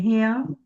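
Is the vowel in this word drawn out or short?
drawn out. The vowel is held longer with a glide.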